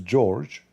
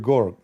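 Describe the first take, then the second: First: The name begins with a soft J sound. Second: The name begins with a hard G sound. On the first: "if your name is George"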